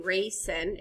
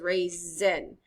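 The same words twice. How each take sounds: First: The middle consonant is a hissing S sound. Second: The middle consonant is a buzzing Z sound. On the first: The speaker calls it wrong. "it doesn't say raisin" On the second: The speaker calls it right. "it says raisin. So the S makes the Z sound"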